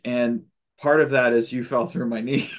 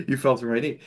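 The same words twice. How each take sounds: First: Breaking into a laugh on the last word; a chuckle slips out right before knee. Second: Said in the usual way. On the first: Retold or imitated. Telling the welder in her dream he fell through her knee, with a laugh.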